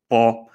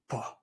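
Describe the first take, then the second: First: The syllable has a mid level tone. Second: The syllable falls with a breathy voice. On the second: "the falling breathy tone"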